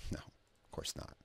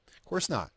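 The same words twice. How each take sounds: First: Breathy whispered aside. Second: High exclamation. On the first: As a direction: whisper it under your breath. Quiet aside to himself. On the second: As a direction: jump up high in pitch. Repeats the aside louder. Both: Real, not acted.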